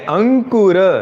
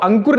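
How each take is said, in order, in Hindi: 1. नाम का अंत उच्चारित अंतिम स्वर 'a' से होता है। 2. नाम का अंत बिना स्वर वाले अंतिम 'r' पर होता है।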